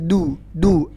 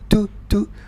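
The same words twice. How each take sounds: First: The d is released with no puff of air. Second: The d is released with a puff of air. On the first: The speaker calls it right. "Yang benar" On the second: The speaker calls it wrong. "ini nggak boleh. Nggak boleh ada angin yang keluar"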